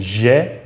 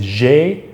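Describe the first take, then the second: First: "j'ai" as zheh; open-vowel variant of "j'ai". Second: "j'ai" as zhay; closed-vowel variant of "j'ai". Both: Shown as a demonstration. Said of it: "can be a little more open and closed".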